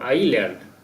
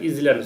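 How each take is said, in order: First: No z or s sound is heard before the l. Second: A z sound is heard before the l. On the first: The speaker calls it right. "I এসটা silent থাকবে" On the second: The speaker calls it wrong. "ইজল্যান্ড উচ্চারণ হবে না"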